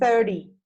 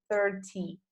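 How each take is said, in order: First: It is said with an American accent. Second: It is said with a non-American accent.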